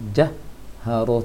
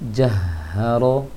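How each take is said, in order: First: The breath stops before the vowel after h. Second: The breath flows straight into the vowel after h. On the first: The speaker calls it wrong. "terhenti anginnya baru terucapkan harokat H-nya" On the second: The speaker calls it right. "biarkan angin itu mengalir"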